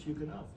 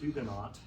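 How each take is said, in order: First: The H is pronounced but the final T is silent. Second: Both the first H and the final T are pronounced. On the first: This is how the English say it. "the English pronunciation of Huguenot, which is Huguenot" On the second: This is the form learned in school. "I learned when I was a school child to say Huguenot"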